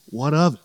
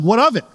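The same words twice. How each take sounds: First: "What of it?" lightly tossed off, restrained; questioning inflection. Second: "What of it?" swooping up high, then dropping; exaggerated inflection. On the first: Retold or imitated. Preacher reading Luther's retort to the devil, understated questioning inflection. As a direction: say "What of it?" softly with a small lift and drop. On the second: Shown as a demonstration. Preacher mimicking Luther's retort to the devil, exaggerated inflection. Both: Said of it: "do that inflection in German".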